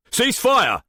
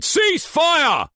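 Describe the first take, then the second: First: Loud barked command; shouting. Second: Even higher, louder shout. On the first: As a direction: yell it across the room. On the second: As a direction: scream the order over gunfire. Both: A narrator's reading. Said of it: "Haken shouted".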